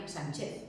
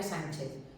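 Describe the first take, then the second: First: Sánchez stressed on the last syllable, san-CHEZ; wrong stress on Sánchez. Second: Said in the usual way. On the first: Shown as a demonstration. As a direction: say Sánchez as if it had no accent mark, stress at the end. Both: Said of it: "si no sería Sánchez".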